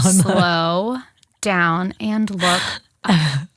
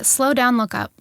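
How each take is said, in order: First: It is said slowly. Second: It is said fast.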